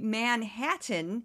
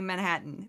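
First: Every syllable is pronounced fully and carefully. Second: The syllables are slurred together. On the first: The speaker has just moved to the city. "If they say Manhattan, they probably just moved here" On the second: The speaker has lived in the city a long time. "They slur it"

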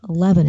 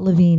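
First: The name ends with a short 'vin' sound. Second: The name ends with a long 'veen' sound. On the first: The speaker calls it right. "I should have pronounced the name Mark Levin" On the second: The speaker calls it wrong. "It's not Levine"

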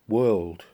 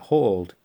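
First: The word starts with a w sound, like 'world'. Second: The word starts with an h sound, like 'hall'. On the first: "like wood" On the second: "That doesn't sound right at all"

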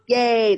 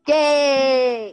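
First: It is said with little energy. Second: It is said with lots of energy.

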